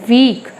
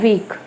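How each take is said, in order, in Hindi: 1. शब्द को अतिरिक्त ज़ोर देकर बोला गया है। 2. शब्द को छोटा और जल्दी से बोला गया है। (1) "थोड़ा दबाव देकर वीक" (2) "वीक जल्दी से"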